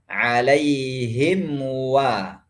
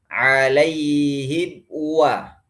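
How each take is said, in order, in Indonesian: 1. Bunyi m terdengar jelas sebelum wa. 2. Bibir tertutup, tetapi bunyi m tidak terdengar. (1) "Harus mimnya harus jelas bunyinya" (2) "Tapi bunyi mimnya nggak ada"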